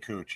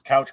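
First: The vowel sounds like in 'coo'. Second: The vowel sounds like in 'cow'. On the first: "but they say cooch" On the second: "so it's couch grass"

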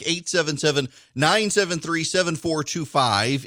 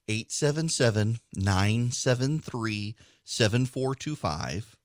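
First: The number is said fast. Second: The number is said slowly.

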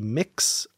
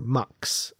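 First: The vowel is short i, as in mix. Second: The vowel is short u, as in mux. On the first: "there are a couple pronunciations. It can be Mix" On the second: "or Mux"

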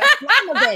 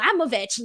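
First: It is said with more intensity. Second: It is said with little intensity.

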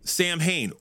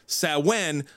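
First: The name is said in the band's style. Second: The name is said in the traditional style. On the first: This is how fans of the band say it. "all the old school people call it Samhain" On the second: This is the original pronunciation of the word. "as it's actually supposed to be pronounced"

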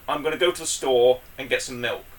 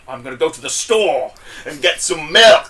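First: The sentence is spoken at an even, normal loudness. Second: One word is shouted loud and heavily enunciated. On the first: "let's say a sentence I have to say with people is" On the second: "So this is how Kingpin would say it"

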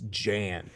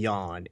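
First: The name is said as English spelling suggests. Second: The name is said the native Polish way. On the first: This is how it reads to English speakers. "It fucking reads Jan" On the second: This is how the fighter's own language says it. "you keep trying to pronounce the name right"

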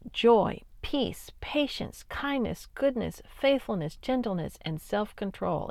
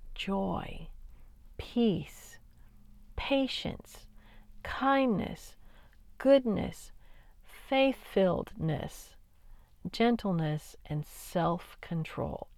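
First: The list is said quickly. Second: The list is said slowly.

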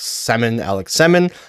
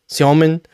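First: The first syllable is said like 'seh'. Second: The first syllable is said like 'syo'. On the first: The speaker calls it wrong. "for a lot of North Americans calling Alex Semin" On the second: The speaker calls it right. "whereas it's really Siomin"

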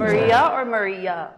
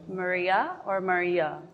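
First: The phrase is said at a normal pace. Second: The phrase is said slowly.

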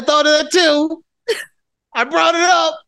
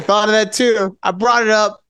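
First: It is said with some life and feeling. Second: It is said flatly, with no life.

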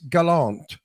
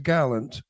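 First: The name is said with French pronunciation. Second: The name is said with English pronunciation. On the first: "in French, it's Gallant" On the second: "but in English, it's Gallant"

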